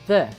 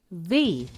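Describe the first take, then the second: First: The vowel sounds like a short 'uh'. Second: The vowel sounds like a long 'ee'. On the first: The next word begins with a consonant. "A palavra que vem depois do the começar por uma consoante, então a gente pronuncia assim" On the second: The next word begins with a vowel. "se a palavra que vem depois do artigo começar por uma vogal, pronunciamos the"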